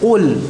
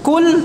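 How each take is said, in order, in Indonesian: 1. Diawali dengan q yang tebal dengan napas tertahan. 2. Diawali dengan k yang tipis dengan napas mengalir. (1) "tebal dan tadi majhurah, tertahan nafasnya" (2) "Kul tidak"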